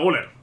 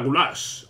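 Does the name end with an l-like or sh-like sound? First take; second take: l-like; sh-like. First: The name ends with an l-like sound. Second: The name ends with an sh-like sound. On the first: The speaker calls it wrong. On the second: The speaker calls it right.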